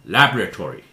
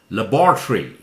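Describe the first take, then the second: First: It is said with an American pronunciation. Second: It is said with a British pronunciation. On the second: "The British pronunciation"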